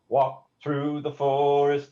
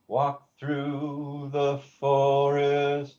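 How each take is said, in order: First: The word 'the' is very short. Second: The word 'the' is held longer.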